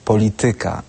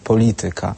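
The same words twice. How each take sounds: First: The stress is on the third syllable, ty. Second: The stress is on the second syllable, li. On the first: The speaker calls it wrong. "mówią polityka zamiast polityka" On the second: The speaker calls it right. "zamiast polityka"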